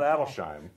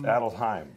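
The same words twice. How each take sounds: First: The s and h blend into one 'sh' sound. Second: The s and h are split between syllables. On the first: The speaker calls it wrong. "it's not Adelsheim" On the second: The speaker calls it right. "It's Adelsheim"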